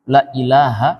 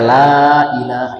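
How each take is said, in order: First: The vowel of the first word is cut short. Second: The vowel of the first word is held long. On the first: Surely there is a god besides God. The speaker calls it wrong. "Tapi kalau kita pendekkan ... Ini dibaca pendek" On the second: There is no god except God. The speaker calls it right. "Kalau tidak kan panjang ya"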